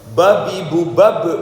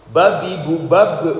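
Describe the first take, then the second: The two takes are said the same way.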